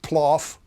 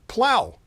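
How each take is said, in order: First: The word ends with an 'off' sound. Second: The word ends with an 'ow' sound. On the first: The speaker calls it wrong. "not ploff" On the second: The speaker calls it right. "but plow"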